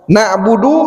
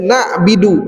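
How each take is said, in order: First: The vowel after b is 'u'. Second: The vowel after b is 'i'. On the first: The speaker calls it right. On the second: The speaker calls it wrong.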